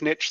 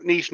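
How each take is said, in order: First: "niche" said NITCH, with a short i. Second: "niche" said NEESH, with a long ee. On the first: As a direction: end "niche" on a hard tch, like pitch. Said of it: "same thing". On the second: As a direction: end "niche" on a soft sh, like quiche. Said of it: "that's my preferred pronunciation". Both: Shown as a demonstration.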